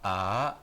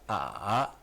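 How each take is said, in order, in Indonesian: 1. Nada naik dari tengah ke tinggi. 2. Nada turun rendah, lalu naik. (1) "yang kedua" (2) "yang ketiga"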